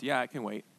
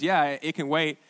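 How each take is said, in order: First: Soft, lower-pitched imagined reply from God; quiet answer. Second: Said in the usual way. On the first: Retold or imitated. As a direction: give the retold answer low and softly. God's answer, then his own reading.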